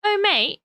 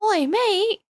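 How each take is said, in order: First: High, playful mock Australian Oh, mate; second try at an Aussie greeting; lightly put-on Australian accent. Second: High, playful mock Australian Oi, mate; a jokey Aussie greeting; lightly put-on Australian accent. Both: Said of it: "that still sounds Australian".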